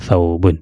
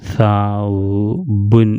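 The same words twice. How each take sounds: First: The letters are blended into one smooth word. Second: Each letter is read separately with breaks. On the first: "കൂട്ടി വായിക്കും" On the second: "ഓരോ അക്ഷരങ്ങൾ എടുത്ത് വായിച്ച്"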